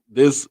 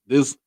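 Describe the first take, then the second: No difference in how they are said.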